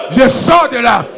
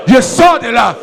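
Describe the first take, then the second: No difference in how they are said.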